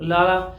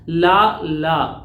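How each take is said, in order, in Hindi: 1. यह तेज़ी से बोला गया है, दूसरा अक्षर अस्पष्ट है। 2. दोनों अक्षर धीरे और साफ़ बोले गए हैं। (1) "अब मैं स्पीडली बोल दूं" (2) "अब देखो"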